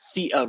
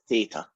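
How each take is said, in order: First: Theta is pronounced the British way. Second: Theta is pronounced the American way. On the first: The speaker calls it right. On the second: The speaker calls it wrong.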